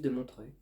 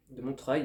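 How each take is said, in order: First: Said in the usual way. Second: Montreuil with the last syllable "-treuil" said fully and clearly, ending in "euil"; careful pronunciation. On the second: Shown as a demonstration. Booktuber repeating the town name so viewers don't hear Montreux, final syllable "-treuil" pronounced clearly. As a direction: land on the end of Montreuil so it can't be heard as Montreux. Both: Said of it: "j'insiste pas sur la dernière syllabe".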